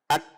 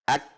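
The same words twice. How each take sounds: First: The final k is light and made further forward. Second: The final k is light and made further forward.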